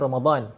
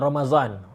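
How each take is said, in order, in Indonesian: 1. Konsonan tengahnya bunyi d. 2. Konsonan tengahnya bunyi z. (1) "Sebenarnya Ramadan" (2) "orang Pakistan sebut uh, Ramazan"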